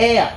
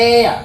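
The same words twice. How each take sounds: The two takes are said the same way.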